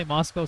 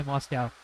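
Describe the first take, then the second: First: "Moscow" rhyming its ending with "go"; Moscow ending in "-coh". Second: "Moscow" with its ending like the animal cow. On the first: Streamer showing viewers one way people say it, "Moscow" with an "oh" ending. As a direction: say "Moscow" as MOSS-koh. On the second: Streamer showing viewers the other way, "Moscow" with an "ow" ending. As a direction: say "Moscow" as MOSS-kow. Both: Shown as a demonstration. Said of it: "some people say Moscow".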